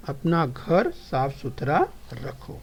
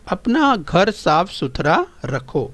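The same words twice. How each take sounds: First: The same sentence, slow and much quieter; soft, slow classroom echo; softer repeat. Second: Slow model reading. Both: Shown as a demonstration. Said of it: "ध्यान से सुनिए और समझिए और दोहराइए".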